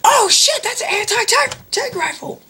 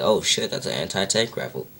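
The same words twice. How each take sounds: First: Very high screeched alarm; mock panicked freak-out. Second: Said in the usual way. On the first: Guard seeing the rifle in a retold parody, mock panicked screech. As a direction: flip out in exaggerated panic. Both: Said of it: "Really just flips out".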